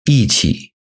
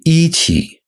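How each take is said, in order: First: The first syllable has a falling tone. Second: The first syllable has a high level tone. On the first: The speaker calls it right. "It becomes fourth tone" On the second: The speaker calls it wrong. "If you say"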